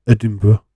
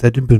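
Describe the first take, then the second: First: Edinburgh said as "Uh-dim-bruh", rolled into the ending; rejected pronunciation. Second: Edinburgh said as "Edin-buh", second syllable softened; corrected pronunciation. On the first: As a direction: say Edinburgh with a blurred first vowel and "bruh" ending. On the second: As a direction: say Edinburgh with a clear opening "Ed" and a loose ending. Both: Shown as a demonstration. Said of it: "not Edinburgh".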